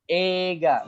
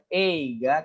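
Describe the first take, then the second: First: Ega with a long "e"; teaching demo of the right form; correct pronunciation. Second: Eiga with "e-i" said apart, slowly; slow teaching demo of the wrong form; wrong pronunciation. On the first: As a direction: hold the "e" of "Ega". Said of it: "tapi ega". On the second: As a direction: split "eiga" into e and i. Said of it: "bukan eiga". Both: Shown as a demonstration.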